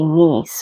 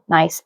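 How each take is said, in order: First: It sounds like 'niece', a French pronunciation. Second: It rhymes with 'rice', an American pronunciation. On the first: "like French where it's supposed to be niece" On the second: "it's American nice"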